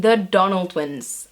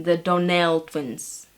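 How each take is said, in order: First: "Donnell" stressed on the first syllable; mispronounced name. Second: "Donnell" slowly, stressed on the last syllable. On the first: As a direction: say "Donnell" as DON-ul, weak ending. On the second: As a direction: say "Donnell" as don-NELL, correcting yourself. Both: Shown as a demonstration. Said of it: "is on the last syllable".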